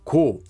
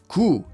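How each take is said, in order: First: The syllable ends in an 'oh' vowel. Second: The syllable ends in an 'oo' vowel. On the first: "instead of 고" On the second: "pronounce this grammar form as 구"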